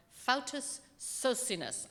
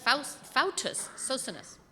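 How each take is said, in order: First: Slow, careful try at "Fautus Socinus"; unsure name. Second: Slower, louder "Fautus Socinus", "Faust-" cut off first; retry "Fautus Socinus" with a false start; second try at the name. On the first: Preacher unsure how to pronounce a Polish name, slow careful try. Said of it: "not even sure how that gets pronounced". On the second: Preacher retrying the odd name for the congregation, slow and deliberate. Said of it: "sound kind of like a Harry Potter character". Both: Real, not acted.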